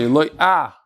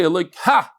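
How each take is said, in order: First: "Eloika" stressed on "loi", the final h barely sounded; correct pronunciation. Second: "Eloika" with the stress on the final "ka" and the h sounded; wrong pronunciation. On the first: Rabbi correcting listeners' Hallel pronunciation, stressed on "loi". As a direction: give "Eloika" the right way, weight on the middle syllable. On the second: Rabbi showing listeners the Hallel mistake, end-stressed "Eloika". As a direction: say "Eloika" the wrong way, leaning on the last syllable. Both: Shown as a demonstration. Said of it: "he mentioned the correct pronunciation".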